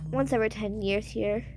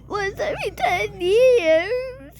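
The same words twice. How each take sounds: First: Said in the usual way. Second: High, wailed question; whiny sobbing echo, rising at the end; pretend tearful dismay. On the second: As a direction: cry it back in mock disbelief. Scared one wails it back.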